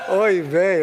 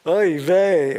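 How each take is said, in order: First: A loud, high, put-on old-woman lament; imitating grandma's oy vey. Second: Loud, high, exasperated groan of a word; exasperated oy vey. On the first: Grandson mimicking his grandmother in a loud lament. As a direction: wail it like a fed-up grandmother. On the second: Retold or imitated. Grandson imitating his grandmother's loud exasperated oy vey. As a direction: throw up your hands and wail it. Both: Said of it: "a combination of hand gestures".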